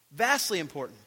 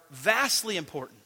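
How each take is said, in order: Both takes have the same delivery.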